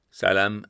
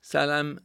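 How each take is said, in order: First: Louder, automatic answer to Salam; instinctive reply. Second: High short greeting called out; brief call. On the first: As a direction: answer Salam without thinking. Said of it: "antwortete er instinktmäßig". (instinktive, lautere Antwort) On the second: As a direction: toss a quick high Salam. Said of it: "riefen sie ihm kurz zu". (kurzer, hoher Zuruf) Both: A narrator's reading.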